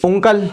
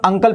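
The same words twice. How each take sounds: First: उंकल said with a rounded u at the start; wrong reading. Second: अंकल said with an open short a at the start; correct reading. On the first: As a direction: begin उंकल on a u sound, the wrong way. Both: Shown as a demonstration. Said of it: "not उंकल".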